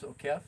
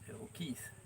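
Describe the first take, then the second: First: The second syllable has a short 'e' vowel. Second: The second syllable has a long 'ee' vowel. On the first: This is how it is read in the Philippines. "it would be pronounced Okef here in the Philippines" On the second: This is how it is said in the US. "but we know in the U S it's O'Keefe"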